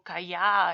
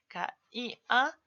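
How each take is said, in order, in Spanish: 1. Las vocales se unen, así que son dos sílabas. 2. Las vocales están separadas, así que son tres sílabas. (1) "si yo digo" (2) "en vez de ca-i-a"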